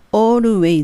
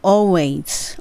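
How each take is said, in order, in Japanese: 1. 日本語のカタカナ風の音節で言う。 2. 英語の音で、はっきりしたLを使って言う。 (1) "本当のカタカナでちょっと言ってみたんですが、always じゃなくて" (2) "舌を歯の裏に当ててalways なります"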